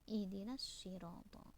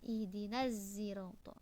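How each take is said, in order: First: The word begins with an emphatic s sound. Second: The word begins with an s blended toward z. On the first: This is the standard reading of the word. "tetap dibaca dengan shot" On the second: This is a second reader's transmission of the word. "Khalad hanya membaca ismam"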